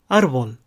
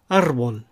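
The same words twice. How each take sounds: First: "アルボル" as Spanish árbol, r tapped; one tongue flick for the first ル in アルボル; short flapped r in アルボル. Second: "アルボル" as Spanish árbol, r rolled; vibrating r in アルボル; trilled r. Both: Shown as a demonstration. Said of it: "いずれで発音しても間違いではありません".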